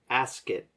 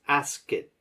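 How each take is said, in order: The two takes are said the same way.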